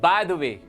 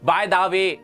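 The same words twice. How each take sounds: First: The words run together smoothly without stress. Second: Each word is said separately with heavy stress. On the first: The speaker calls it right. "एकदम flow में बोलना है" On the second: The speaker calls it wrong. "ऐसे नहीं"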